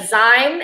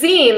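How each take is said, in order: First: The vowel does not match the end of magazine. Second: The vowel matches the end of magazine. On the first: The speaker calls it wrong. "I keep calling a zi- like a zine" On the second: The speaker calls it right. "It's zine, like magazine"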